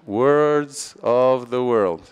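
It is said slowly with every word distinct. "Olha quanto tempo demora para falar"

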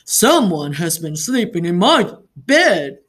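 It is said in Papa Bear's big, deep voice.

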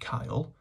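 It sounds like the English boy's name. "pronounced like the boy's name"

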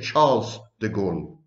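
The name is given an English pronunciation. "we say Charles de Gaulle"

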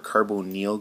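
Carbonyl is said with a British pronunciation.

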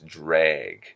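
The vowel is flattened toward an E sound. "drag becomes drag"

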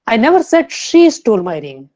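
The stress falls on the word she. Someone else stole the ring. "Fourth"

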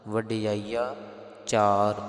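The 'aa' sound ends the first word. The speaker calls it right. "ਇਹ ਸ਼ੁੱਧ ਪਾਠ ਇਦਾਂ ਕਰਨੇ ਹਨ"

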